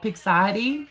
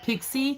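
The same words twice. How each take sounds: First: The name is said with a T sound. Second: The name is said without a T sound. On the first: "I always want to say like Pixie. I don't know why. I know there's not a T in it" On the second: "is that how it's supposed to sound out?"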